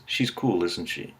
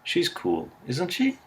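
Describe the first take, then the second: First: The voice falls on the tag at the end. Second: The voice rises on the tag at the end. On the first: The speaker assumes the listener will agree. "with falling intonation assumes you'll agree with him" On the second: The speaker is less certain of agreement. "is less certain"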